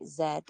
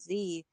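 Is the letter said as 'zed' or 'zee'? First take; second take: zed; zee. First: The letter is said as Canadian 'zed'. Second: The letter is said as American 'zee'.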